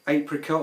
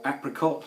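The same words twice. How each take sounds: First: It is said with a British pronunciation. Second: It is said with an American pronunciation.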